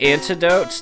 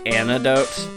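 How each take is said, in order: First: The word is said slowly with a clear T. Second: The word is said with no T sound. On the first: "there we go, I said it slower this time" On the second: "like there's no T in there for some reason"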